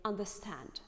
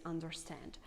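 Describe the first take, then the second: First: "understand" with no R; "understand" as "undah-stand"; British dropped R. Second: Soft "understand" with a clear R; "understand" as "underr-stand"; American strong R. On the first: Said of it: "British people say". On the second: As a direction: sound the R in "understand". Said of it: "prefer to highlight this R". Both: Shown as a demonstration.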